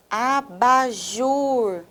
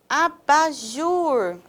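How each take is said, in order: First: ABAJUR slowly split, a-ba-JUR, last syllable held. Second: ABAJUR with a lengthened final JUR; stressed final syllable. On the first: Teacher repeating for students to hear stress, slow split ABAJUR. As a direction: stretch every syllable of ABAJUR, longest on JUR. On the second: Teacher introducing the word to students, ABAJUR with long JUR. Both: Shown as a demonstration.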